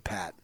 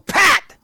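First: The name is said calmly at normal loudness. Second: The name is said loudly with strong emphasis. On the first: A simple introduction. "I just say" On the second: A firm correction that sets a boundary. "Just with the emphasis"

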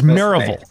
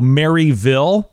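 First: It is pronounced the way locals say it. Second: It is pronounced the way outsiders read it. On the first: The speaker has lived in the area a while. The speaker calls it right. "And it's Maryville" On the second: The speaker is not from the area. The speaker calls it wrong. "People from outside of Tennessee will look at that name and go"

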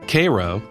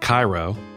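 First: It is pronounced the local Southern way. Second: It is pronounced the usual standard way. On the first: This is how the Georgia town is named. The speaker calls it right. "it's pronounced a distinctly southern way" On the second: This is how the Egyptian city is named. The speaker calls it wrong. "not Cairo"

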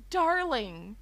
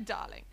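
First: It is said in an American accent. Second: It is said in a British accent. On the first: The endearment sounds odd. The speaker calls it wrong. "it sounds wrong" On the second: The endearment sounds natural. The speaker calls it right. "British people can get away with that"

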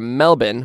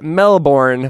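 First: It has a short, reduced Australian second syllable. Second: It has a full, American-style second syllable. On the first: "which is the Australian way of saying Melbourne" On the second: "That's how we Americans say it"

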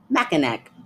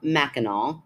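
First: The word ends with an 'ack' sound. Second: The word ends with an 'aw' sound. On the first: The speaker calls it wrong. "Ack. Mackinac. ... That's what I would have said" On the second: The speaker calls it right. "it turns into an A at the end"

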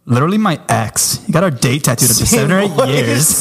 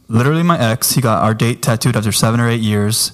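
First: It is read in a put-on female voice. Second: It is read in the speaker's ordinary voice.

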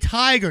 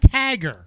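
First: The first vowel is a long 'eye' sound. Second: The first vowel is a short flat 'a'. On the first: The speaker calls it right. "Yes, a tiger" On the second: The speaker calls it wrong. "not a tagger"

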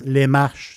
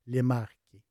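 First: The name is pronounced the French way, with a soft ch. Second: The name is pronounced the Italian way, with a hard k. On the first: "si on le prononce" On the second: "Si on le prononce en italien"

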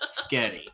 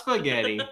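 First: The word is clipped to two syllables. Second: The word is said with all three syllables. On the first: "I like to say it this way" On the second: "Not spaghetti"

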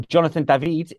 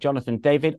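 First: The name is said a fancier, more foreign way. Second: The name is said the ordinary, everyday way.

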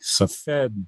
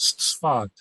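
First: The name is said as its English spelling reads. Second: The name is said the way Israelis say it. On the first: "it looks in English like Safed" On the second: "I pronounce it as we do in Israel as Sfat"

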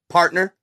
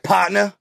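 First: It is said in a white-sounding accent. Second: It is said imitating Tupac's accent.

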